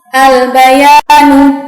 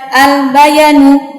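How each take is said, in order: First: The middle vowel is held long. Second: The middle vowel is cut short. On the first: The speaker calls it right. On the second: The speaker calls it wrong.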